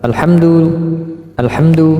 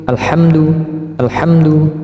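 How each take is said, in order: The two takes are said the same way.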